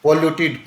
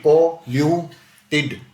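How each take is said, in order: First: Said in the usual way. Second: पॉल्यूटेड slowly broken into po-lyu-ted; syllable by syllable. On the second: Shown as a demonstration. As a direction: sound out पॉल्यूटेड in three separate beats. Teacher splits word into syllables.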